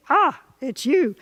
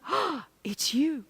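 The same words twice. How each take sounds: First: Slow, flat, let-down "Ah, it's you"; bored recognition. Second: Softer, slow, glowing "Oh, it's you"; softly delighted. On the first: Longtime partner at the door, weary unimpressed greeting. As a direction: sound unimpressed to see them. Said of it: "same words, different sparkly bits". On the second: New lover at the door on the first Friday date, soft delighted greeting. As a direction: greet them like the best surprise. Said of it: "you go". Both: Shown as a demonstration.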